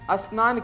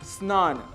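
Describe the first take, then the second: First: An extra vowel sounds before the s. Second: The word starts directly with the s sound. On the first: The speaker calls it wrong. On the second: The speaker calls it right.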